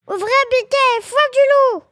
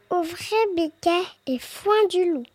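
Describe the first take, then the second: First: High, loud mother goat call; crying out. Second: Small, soft put-on goat voice; small fake voice. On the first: Mother goat calling her kids to open up, high cry. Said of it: "crie la chèvre". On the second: Wolf posing as the mother at the door, small voice. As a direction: softly feign a sweet little voice. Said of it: "en faisant une petite voix". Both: A narrator's reading.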